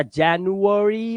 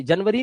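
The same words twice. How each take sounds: First: जनवरी as slow JAN-yu-a-ree; slow teacher's model of January; correct English form. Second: जनवरी as quick JUN-vuh-ree; short flattened vowels in जनवरी; wrong Hindi-style form. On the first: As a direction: stretch जनवरी out, every vowel sounded. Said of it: "जनवरी होता है". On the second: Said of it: "जनवरी नहीं होता". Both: Shown as a demonstration.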